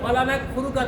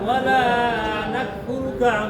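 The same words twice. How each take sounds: First: The final vowel of wala is short. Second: The final vowel of wala is drawn out. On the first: We certainly disbelieve. The speaker calls it wrong. "যদি বলেন ওয়ালা নাকফুরুকা তাহলে অর্থ হয় অবশ্যই আমি কুফরি করি" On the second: We do not disbelieve. The speaker calls it right. "এই জায়গায় ওয়ালা টানতে হবে"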